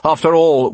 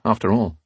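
First: Higher and louder, pointed; pointed rebuke. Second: Said in the usual way. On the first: A narrator's reading. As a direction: lean on it as a reminder. Leader rebukes captain.

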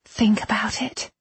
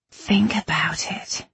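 First: High, hushed plea; earnest appeal. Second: Slow, heavy-mouthed whispery mumble; faint words, thick on the tongue. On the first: Irene's appeal, first take. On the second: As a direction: mumble as if close to passing out. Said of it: "she mumbled, the words thick and heavy". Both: A narrator's reading.

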